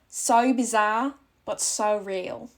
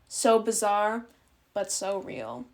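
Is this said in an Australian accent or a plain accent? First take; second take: Australian; plain. First: It is said in an Australian accent. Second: It is said in the speaker's plain accent.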